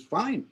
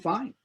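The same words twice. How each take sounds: First: Short, clipped-off fine; a terse retold fine; curt fine. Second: Short fine with a small rise; a cocky retold fine; defiant fine. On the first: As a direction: toss it back flatly. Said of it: "I says". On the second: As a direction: shrug it back at him. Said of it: "I looked at him and went".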